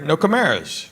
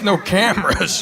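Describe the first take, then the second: First: "No Camaras" said as kuh-MAIR-uhs, the way it is spelled; reading "Camaras" off the ticket with a long middle A; wife's misreading. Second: "no cameras" said as the ordinary English word cameras; plain "cameras" with a short A, setting it straight; correct word. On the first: Wife reading the band name off the ticket as kuh-MAIR-uhs. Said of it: "Honey, that's no cameras". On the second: Husband correcting his wife with plain "cameras". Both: Retold or imitated.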